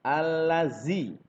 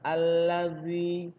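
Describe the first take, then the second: First: The middle consonant is a buzzing 'z' sound. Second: The middle consonant is a soft 'dh' sound. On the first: The speaker calls it wrong. "jangan sampai mengucapkan seperti huruf za" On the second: The speaker calls it right. "Yang benar pengucapannya adalah"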